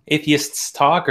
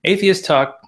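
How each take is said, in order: First: "Atheists" slowly, with the final s sounded; corrected plural. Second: Said in the usual way. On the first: Real, not acted. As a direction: say "Atheists" carefully, adding the plural s. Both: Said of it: "we'll get it straight at some point".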